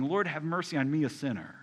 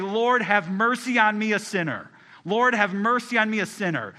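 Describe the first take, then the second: First: Pleading. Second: Louder, higher cry for mercy; loud fervent plea. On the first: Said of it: "they're just pleading". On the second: Praying sinner at the altar, loud and fervent. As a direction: call out to God for mercy. Sinner's prayer voiced in parable. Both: Acted.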